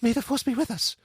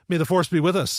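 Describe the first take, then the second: First: It is said softly, with an awed gasp. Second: It is said with scornful, sarcastic heat.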